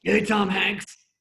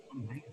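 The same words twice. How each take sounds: First: Nervous, loud, high greeting; Chris. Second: Very soft, puzzled echo; the room's reaction. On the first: Nervous writer greeting the star host, loud and awkward. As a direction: drag out an over-loud, awkward hello. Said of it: "But he gets so nervous". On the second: Writers echoing the nervous greeting, very quietly. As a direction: murmur the name back under your breath. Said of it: "And we all go". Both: Retold or imitated.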